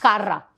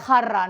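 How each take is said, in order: First: The word begins with a hard K-like sound. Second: The word begins with a raspy throaty J sound. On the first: This imitates how a relative mispronounced the word. The speaker calls it wrong. "no pronunciaba eh, la J" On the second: This is the standard pronunciation. The speaker calls it right. "No era jarra"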